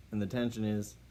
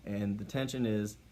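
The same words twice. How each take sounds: The two takes are said the same way.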